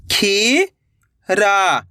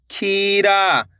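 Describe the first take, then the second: First: "खीरा" split into two long syllables. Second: Said in the usual way. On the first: Shown as a demonstration. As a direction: draw out खी, pause, then रा in "खीरा". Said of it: "एक एक अक्षर का उच्चारण". ("खीरा" को तोड़कर, खी... रा) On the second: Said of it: "तो मिलके बन जाएगा".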